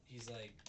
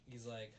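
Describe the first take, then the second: No difference in how they are said.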